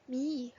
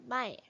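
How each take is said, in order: First: The word ends with an 'ee' vowel. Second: The word ends with an 'eye' vowel. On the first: It blends the letter sounds one by one. The speaker calls it wrong. "if we say the sounds M and Y, me, there's no there's no word like that" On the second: It is the real word. The speaker calls it right. "We pronounce it as my"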